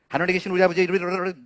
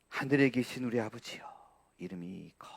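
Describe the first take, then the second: First: It is said fast and rushed. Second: It is said slowly and deliberately.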